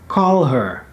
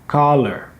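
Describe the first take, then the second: First: The two words are said separately with 'h'. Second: The words merge into one word without 'h'. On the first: "Another example could be call her" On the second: "can become uh, caller"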